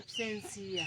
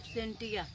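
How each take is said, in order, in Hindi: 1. अंत से पहले वाला अक्षर 's' से शुरू होता है। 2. अंत से पहले वाला अक्षर 't' से शुरू होता है। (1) "सिया हो ये एब्सेंसिया हो" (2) "लेकिन ये गलत है"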